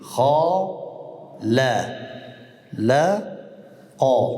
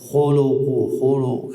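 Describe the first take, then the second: First: The vowels are said with unrounded lips. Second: The vowels are said with rounded lips. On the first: The speaker calls it right. "لبها بخور نکردیم" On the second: The speaker calls it wrong. "لبها که یکم تا میگو"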